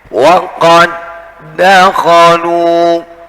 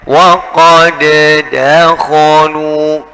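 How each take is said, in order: First: The two d sounds merge into one doubled d. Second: The first d bounces separately before the second. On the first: The speaker calls it right. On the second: The speaker calls it wrong. "tidak boleh dibaca ... meskipun dal itu punya sifat qalqalah atau memantul"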